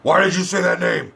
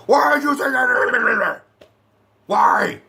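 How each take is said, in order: First: Put-on voice, raised mock-angry demand; Batfleck. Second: High garbled mock-furious shout; Batfleck. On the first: Reviewer mimics Batman losing it at Superman, mock-angry demand. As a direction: demand it in a hammed-up hero voice. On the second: Reviewer mimics Batman losing it at Superman, hammed-up frantic shout. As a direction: lose it completely, words dissolving into a yell. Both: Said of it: "fucking Batfleck loses his shit".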